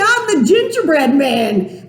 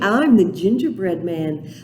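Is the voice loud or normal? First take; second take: loud; normal. First: It is said in a very loud voice. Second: It is said at normal loudness.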